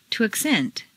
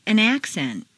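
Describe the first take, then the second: First: AcCENT, stressed on the second syllable. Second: ACcent, stressed on the first syllable. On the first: Teacher models verb "accent", second-syllable stress. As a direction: hit CENT in "accent". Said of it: "to the second syllable". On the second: Teacher models noun "accent", first-syllable stress. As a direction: hit AC in "accent". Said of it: "change the stress from the first syllable for nouns". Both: Shown as a demonstration.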